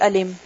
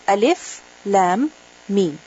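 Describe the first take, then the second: First: It is read as one joined word. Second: Each letter name is said separately. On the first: The speaker calls it wrong. "You don't say ألم" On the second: The speaker calls it right. "it is pronounced separately"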